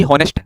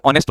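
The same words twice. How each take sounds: First: हॉनेस्ट opening on an audible H; wrongly sounded H. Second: ऑनेस्ट starting straight on the O sound; silent H. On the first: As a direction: imitate students saying हॉनेस्ट with the H pronounced. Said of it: "बहुत सारे बच्चे एच देकर क्या बोलते हैं". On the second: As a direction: drop the H entirely in ऑनेस्ट. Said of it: "इसको आप ओ से बोलते हैं". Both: Shown as a demonstration.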